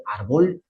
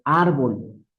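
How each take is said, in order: First: Árbol stressed on the last syllable, ar-BOL; árbol with the stress moved to the end; wrong stress. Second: Said in the usual way. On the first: Shown as a demonstration. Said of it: "debería ser árbol". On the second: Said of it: "Pero decimos árbol".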